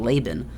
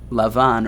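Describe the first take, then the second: First: The name is said in its English form. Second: The name is said in its Hebrew form. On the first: "as most of us in English language call him" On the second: "Lavan is in the Hebrew"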